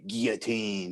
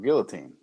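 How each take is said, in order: First: The word is said without an L sound. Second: The word is said with an L sound.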